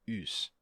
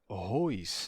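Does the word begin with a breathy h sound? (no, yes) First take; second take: no; yes. First: The word starts directly with the vowel. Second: The word starts with a breathy h sound. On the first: This is the later pronunciation. "ele é u e não tem aspiração" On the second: This is the older classical pronunciation. "seria rois na pronúncia do ático clássico"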